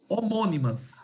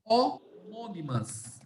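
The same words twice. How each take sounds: First: Said in the usual way. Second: Homônimas spelled out slowly, every syllable drawn out; slow teaching pronunciation. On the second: Shown as a demonstration. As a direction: stretch homônimas out syllable by syllable for the class. (homônimas bem devagar, sílaba por sílaba) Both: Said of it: "Aí eu falo que essas palavras são".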